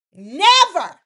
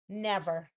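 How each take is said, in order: First: Higher and louder, final and firm; emphatic refusal. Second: Said in the usual way. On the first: Retold or imitated. Elektra refusing Will outright, loud and emphatic. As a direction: slam the door on him with one word. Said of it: "is what she tells him".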